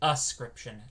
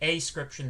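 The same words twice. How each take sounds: First: The first syllable is a short, reduced 'uh'. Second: The first syllable is a full, separate 'ay'. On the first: It comes from the verb to ascribe. The speaker calls it right. "the root of this is to ascribe, so it's ascription" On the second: It means without scription. The speaker calls it wrong. "if you pronounce it ascription, that means without scription"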